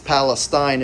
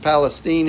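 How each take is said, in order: First: It is pronounced the Middle Eastern way. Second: It is pronounced the way Texans say it. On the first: It names the region in the Middle East. "It's Palestine if you're in the Middle East" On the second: It names the town in Texas. "I guess it's Palestine if you're in Texas"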